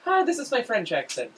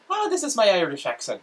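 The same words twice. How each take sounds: First: High-pitched put-on French accent. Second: High, loud put-on Irish accent. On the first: Host switching accents on request, French accent. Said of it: "now go to your French accent". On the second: Host showing off an accent on request, Irish accent. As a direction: belt out a demo Irish accent. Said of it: "Let's hear your Irish accent". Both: Shown as a demonstration.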